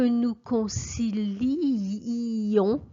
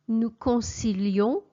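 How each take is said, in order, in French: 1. Le i devant -ons est doublé et allongé. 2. Le i devant -ons est dit une fois, brièvement. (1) "je passe beaucoup de temps sur les deux i" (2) "à l'indicatif"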